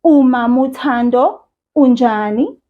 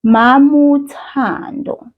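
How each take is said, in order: First: "Umama" with the initial u sounded; full "Umama" with the opening u; "Umama uThando", u pronounced; wrong form. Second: "Mama" with no opening u; "Mama", no initial vowel; right form. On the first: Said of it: "you wouldn't then say". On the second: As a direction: drop the u, say "Mama uThando". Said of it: "You'll simply say". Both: Shown as a demonstration.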